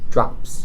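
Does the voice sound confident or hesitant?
hesitant. The word sounds unsure and hesitant.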